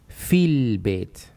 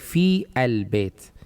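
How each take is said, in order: First: The words run together as one joined unit. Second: The 'a' of 'al' is pronounced separately. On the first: The speaker calls it right. "you need to drop this a here" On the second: The speaker calls it wrong. "Don't say fi al bayt"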